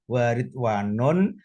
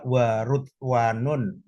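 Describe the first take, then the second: First: The first syllable has an i vowel. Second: The first syllable has a u vowel. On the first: "bikasri awalihi"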